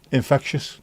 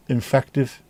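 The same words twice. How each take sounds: First: "Infectious" said correctly with "shus" ending; correct word. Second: "infective" said by mistake, stressed on "fec"; slip, saying "infective" instead of "infectious"; wrong word. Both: Real, not acted. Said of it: "not infective".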